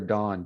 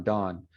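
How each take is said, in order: First: "Dawn" said with an open "ah", like "Don"; imitating the Utah teacher's "Dawn"; western Dawn. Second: "Dawn" said with a rounded "aw", lower. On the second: Retold or imitated. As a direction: say "Dawn" the New York way. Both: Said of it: "He called her Dawn".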